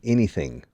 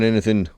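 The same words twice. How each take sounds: First: It is said in a standard American accent. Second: It is said in a rural Appalachian accent.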